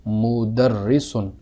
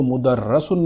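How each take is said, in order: First: مدرسن said slowly as mudarrisun with i on the ra; the right reading مدرسن, short i after the doubled r; مدرسن slow and careful, mudarrisun; correct vowel. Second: مدرسن said as mudarrasun with a on the ra; the mistaken reading مدرسن, open a after the doubled r; مدرسن with zabar, mudarrasun; wrong vowel. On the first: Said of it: "بلکہ". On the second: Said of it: "تو اس کو مدرسن نہیں پڑھیں گے". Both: Shown as a demonstration.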